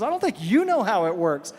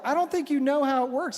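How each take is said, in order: First: "you" punched in a retort; stress on YOU. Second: Higher-pitched "I don't think you know", self-parodying; mock mansplaining. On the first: Retold or imitated. Wife turning husband's words back on him, stressing "you". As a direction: throw it back, leaning hard on "you". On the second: Husband correcting his wife on her own religion, mansplaining. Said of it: "I start mansplaining to my wife".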